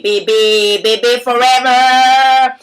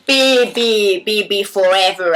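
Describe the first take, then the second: First: Slow, louder sultry film-star purr; Brigitte Bardot. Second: Brigitte Bardot. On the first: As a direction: try the iconic breathy star voice again, hammed. (Brigitte Bardot imitée lentement et plus fort) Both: Acted. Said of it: "comment je fais le bébé".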